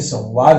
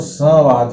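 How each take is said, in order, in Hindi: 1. अनुनासिक के बाद एक अतिरिक्त व जैसी ध्वनि आती है। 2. अनुनासिक बिना व जैसी ध्वनि के सुनाई देता है। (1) "लेकिन ये संवाद हम बोलते हैं" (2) "बिंदी का उच्चारण करेंगे नाक से तो संवाद होगा"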